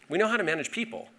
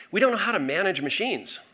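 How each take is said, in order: First: "how" lifted high, the line rattled off quickly; stress on HOW. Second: "don't" pushed up high and hit hard; stress on DON'T. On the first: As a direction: hit "how", then rush to the end. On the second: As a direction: lean into "don't" as the contrast word. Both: Real, not acted.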